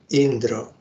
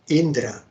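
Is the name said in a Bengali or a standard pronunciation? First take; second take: Bengali; standard. First: The name is said in a Bengali pronunciation. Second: The name is said in a standard pronunciation.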